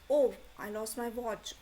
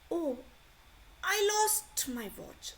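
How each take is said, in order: First: The word Oh carries the strongest stress. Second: The word I carries the strongest stress. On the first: "आपने O को stress किया" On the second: "I को भी stress कर सकते हो आप"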